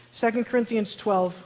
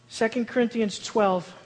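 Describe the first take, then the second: No difference in how they are said.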